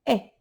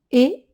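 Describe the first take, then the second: First: "est" dit avec un è ouvert, comme dans "lève". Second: "Et" dit avec un é fermé et aigu, comme dans "été". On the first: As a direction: ouvre la bouche sur "est", son è bien ouvert. (la maîtresse montre l'accent grave, "est" en è ouvert) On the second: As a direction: prononce "Et" bouche presque fermée, son é net. (la maîtresse montre l'accent aigu, "Et" en é fermé) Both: Shown as a demonstration. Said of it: "l'accent est dans l'autre sens".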